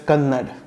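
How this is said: The final vowel is dropped. This is how North Indians say it. "they pronounce it as Kannad"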